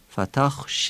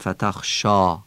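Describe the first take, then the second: First: The final vowel is thinned toward 'e'. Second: The final vowel is a full open 'a'. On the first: The speaker calls it right. "الف آخر کلمه هم ترقیق میشه" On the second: The speaker calls it wrong. "نمیگیم فتخ شا"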